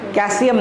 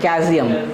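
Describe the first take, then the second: First: The L sound is pronounced. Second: The L sound is left out. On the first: The speaker calls it wrong. "नहीं" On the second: The speaker calls it right. "अब वहाँ पे पूरा का पूरा एल गायब हो गया"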